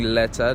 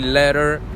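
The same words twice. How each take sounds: First: The T in the middle is clearly pronounced. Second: The T in the middle is softened and quick. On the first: "instead of saying letter" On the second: "they run through the letter. They say letter"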